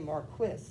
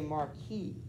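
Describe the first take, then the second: First: It is said with a British pronunciation. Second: It is said with an American pronunciation. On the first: "the English... They'll say marquis" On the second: "normally we would say marquis"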